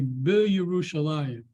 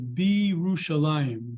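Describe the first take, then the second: First: The Y is pronounced as a separate consonant. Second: The Y merges into a lengthened vowel. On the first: The speaker calls it wrong. "you might be tempted to say" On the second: The speaker calls it right. "you say Be Yerushalayim. The the Y drops"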